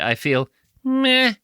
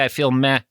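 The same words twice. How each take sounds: First: Meh is said with strong emphasis. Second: Meh is said plainly, without emphasis.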